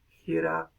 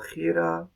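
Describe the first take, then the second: First: The first consonant is soft and breathy. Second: The first consonant is harsh and scraping.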